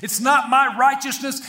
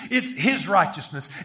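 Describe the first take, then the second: First: "my" pushed up in a raised line; stress on MY. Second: "his" stressed, falling after it. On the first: Preacher denying own righteousness, "my" stressed high. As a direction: lean on "my" to set up contrast. Contrasts my with his. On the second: Preacher crediting Christ's righteousness, "his" stressed. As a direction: answer firmly, leaning on "his". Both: Real, not acted.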